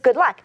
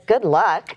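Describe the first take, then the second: First: It sounds friendly and sincere. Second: It sounds snarky and sarcastic.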